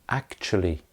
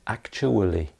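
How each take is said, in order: First: The word is said in reduced form. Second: The word is said in full form. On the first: The speaker calls it right. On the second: The speaker calls it wrong.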